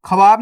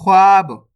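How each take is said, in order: First: ख्वाब said as "kha-vaab", in two syllables; wrong full-letter reading. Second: ख्वाब said as "khwaab", one long syllable; half-letter reading. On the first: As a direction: put a full vowel after kh in ख्वाब. (ख्वाब को पूरे ख के साथ "खवाब" पढ़ें) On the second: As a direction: glide from kh straight into waab in ख्वाब. (ख्वाब में आधा ख, सीधे वा से जुड़ा) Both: Shown as a demonstration. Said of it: "ख्वाब नहीं पढ़ना".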